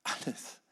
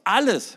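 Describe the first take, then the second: First: Alles breathed softly, no voice; hushed. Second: Alles called out loud and high; loud emphatic. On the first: Preacher whispering the key word Alles. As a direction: whisper Alles to let it sink in. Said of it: "Beachtet die Zeitform". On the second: Preacher proclaiming Jesus' word alles loud. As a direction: hammer home alles. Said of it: "hört mal". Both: Acted.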